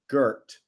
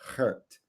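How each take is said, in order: First: The name is said with an English pronunciation. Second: The name is said with a Dutch pronunciation. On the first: The speaker calls it wrong. "I always thought it was Gert" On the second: The speaker calls it right. "the correct Dutch pronunciation is Gert"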